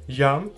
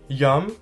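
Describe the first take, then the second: The two takes are said the same way.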